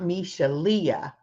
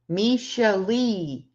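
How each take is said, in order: First: The name ends with a 'lee-uh' sound. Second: The name ends with a plain 'lee' sound. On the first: The speaker calls it wrong. "I always say that wrong" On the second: The speaker calls it right. "Misha Lee, not Misha Leah"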